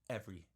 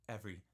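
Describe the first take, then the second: The two takes are said the same way.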